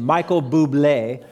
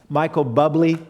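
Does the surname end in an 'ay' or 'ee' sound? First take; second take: ay; ee. First: The surname ends with an 'ay' sound. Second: The surname ends with an 'ee' sound. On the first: The speaker calls it right. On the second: The speaker calls it wrong.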